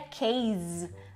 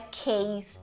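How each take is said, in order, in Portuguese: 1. A palavra termina com um som de z, sonoro. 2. A palavra termina com um som de s, surdo. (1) "Muita gente diria case" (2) "é case mesmo, com S no final"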